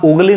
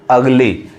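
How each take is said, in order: First: उगली starting with 'oo'; wrong vowel demo. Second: अगली starting with 'uh'; taught 'a' sound. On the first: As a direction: say उगली as 'OOG-lee'. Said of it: "उगली नहीं पढ़ाएगा". (उगली को 'उ' से शुरू करें) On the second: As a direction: say अगली as 'UG-lee'. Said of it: "अ पढ़ा रहा है यहाँ पे". (अगली को 'अ' से शुरू करें) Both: Shown as a demonstration.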